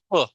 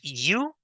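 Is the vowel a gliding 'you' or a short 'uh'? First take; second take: uh; you. First: The vowel is a short grunted 'uh' sound. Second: The vowel is a long gliding 'you' sound. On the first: The speaker calls it right. "sino U" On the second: The speaker calls it wrong. "Que no es you"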